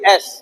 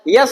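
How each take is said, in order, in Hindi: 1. इसकी शुरुआत एक साधारण स्वर ध्वनि से होती है। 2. इसकी शुरुआत 'y' ध्वनि से होती है। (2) "यस नहीं"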